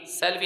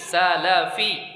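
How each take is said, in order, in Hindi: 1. l के बाद कोई स्वर नहीं है। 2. l के बाद छोटा 'a' स्वर आता है। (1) "सलफ़ी नहीं" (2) "दो ज़बर के साथ"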